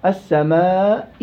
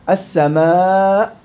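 First: السماء with a faint whispered trace of the kasra at the end, slow; barely hint the vowel on السماء; rawm. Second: السماء with the final hamza fully stopped, slow; sukūn maḥḍ. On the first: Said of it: "روم". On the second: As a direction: stop dead on the end of السماء. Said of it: "سكون محض". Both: Shown as a demonstration.

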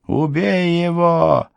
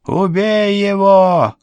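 First: Высокий медленный крик ведьмы; кричи вслед, медленно и яростно. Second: Громче, высокий яростный вопль; надрывайся вслед беглецу; крик ведьмы. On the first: (высокий злобный крик ведьмы) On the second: (громкий яростный крик ведьмы) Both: A narrator's reading. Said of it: "кричала вслед Полуину ведьма".

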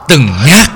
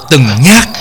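No difference in how they are said.

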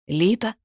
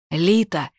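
First: Name lifted in a rising question; questioning call. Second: Mild shout with a falling end; called out. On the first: Corvin entering Lita's bedroom, questioning call. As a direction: ask for her, unsure she is there. Looks for her in the room. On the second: Corvin calling Lita as he runs downstairs, mild shout. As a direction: call her name urgently, restrained. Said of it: "выкрикнул Корвин". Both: A narrator's reading.

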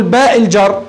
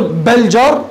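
First: باء الجر with a long aa in باء; letter named in full. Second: بل جر with a short b fused onto the article; letter sound only. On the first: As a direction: say باء as a separate letter name before الجر. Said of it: "ولا تقول باء الجر". (نطق باء الجر باسم الحرف كاملًا) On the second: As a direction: join بل جر up, leaving out the letter name. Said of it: "هل تقول بل جر ولا تقول باء الجر". (نطق بل جر موصولًا دون اسم الحرف) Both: Shown as a demonstration.

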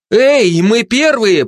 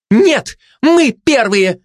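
First: High, loud call to rivals; shouting. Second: Slow, high-pitched barked retort; barking. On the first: Mother runs for the bridge ahead of rivals, shouting. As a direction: yell it across at the competition. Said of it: "прокричала конкурентам мать". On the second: Glutton disputes the mother's claim, barking. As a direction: bark it back, stretching each word. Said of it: "а пролаяла обжора". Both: A narrator's reading.

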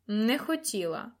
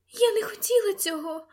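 First: Slow, sarcastic disbelief; mocking echo. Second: High-pitched frightened lady; frightened plea. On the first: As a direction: scornfully throw her excuse back at her. Lord mocks lady's frightened plea. (глузливо, повільно) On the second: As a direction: plead in a small high voice, much higher. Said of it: "прошепотіла вона". (злякано, високим голосом) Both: A narrator's reading.

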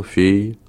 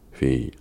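First: "fille" thrown up high in a rising question. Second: Said in the usual way. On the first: Acted. Wolf leader asks the farmer about his child, questioning. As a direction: ask "fille" with a high upward lift.

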